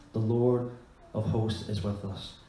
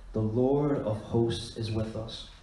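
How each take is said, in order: No difference in how they are said.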